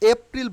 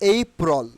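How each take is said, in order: First: The first vowel is a short plain 'eh'. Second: The first vowel is a gliding 'ay'. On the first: The speaker calls it wrong. "এই এপ্রিল বলবো না" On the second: The speaker calls it right. "আমরা কি বলবো?"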